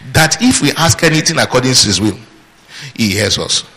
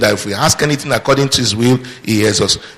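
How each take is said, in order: First: It is read with pauses at the commas. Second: It is read straight through without pauses. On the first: "How do you normally read it?" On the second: "Notice I read it without any commas, deliberately"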